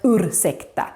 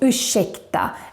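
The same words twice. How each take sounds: First: The r and s are said as separate sounds. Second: The r and s merge into a sh sound. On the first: The speaker calls it wrong. "and not ursäkta" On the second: The speaker calls it right. "you say ursäkta"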